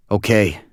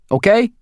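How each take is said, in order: First: Said in the usual way. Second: Higher, louder pointed "okay?" rising up; pointed question. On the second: A narrator's reading. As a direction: push "okay?" up as a demand for agreement. Max's take of the word.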